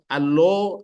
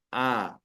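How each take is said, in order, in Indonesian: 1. Vokal akhir terdengar seperti o. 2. Vokal akhir terdengar seperti a. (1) "tak ada O" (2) "yang ada A"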